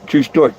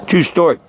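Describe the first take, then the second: No difference in how they are said.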